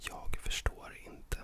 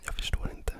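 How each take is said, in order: First: Said slowly, with the g of jag pronounced. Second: Said quickly, with the g of jag dropped.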